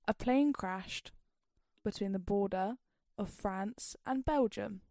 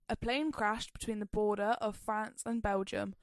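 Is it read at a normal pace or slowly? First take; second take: slowly; normal. First: It is read slowly. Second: It is read at a normal pace.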